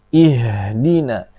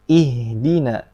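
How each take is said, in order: First: The h sound comes from deep in the throat. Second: The h sound is light and thin. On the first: The speaker calls it wrong. "Jangan terlalu dalam" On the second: The speaker calls it right. "Tapi ihdina"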